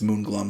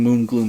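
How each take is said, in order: First: The second syllable has a short 'uh' vowel. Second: The second syllable has a long 'oo' vowel. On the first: The speaker calls it right. "and it's Moonglum" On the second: The speaker calls it wrong. "I've been saying Moongloom this whole time"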